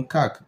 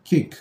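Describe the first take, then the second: First: "cake" pronounced "kak", with a short open a; cake without silent E. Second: "cake" pronounced "kayk", alphabet-name A; cake with silent E. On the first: Teacher showing what removing the last letter gives, "cake" as "kak". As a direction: say cake as if spelt "cak". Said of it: "Si on enlève l'état I ici". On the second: Teacher restoring the last letter, "cake" as "kayk". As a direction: give cake its long A, no final vowel. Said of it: "on écrit I, nous avons". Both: Shown as a demonstration.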